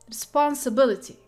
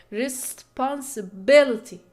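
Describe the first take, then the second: First: Said in the usual way. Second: "Responsibility" slowed, with BIL loudest and SPON secondary; primary and secondary stress. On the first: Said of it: "like responsibility". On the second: Shown as a demonstration. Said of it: "you have the primary stress in bill".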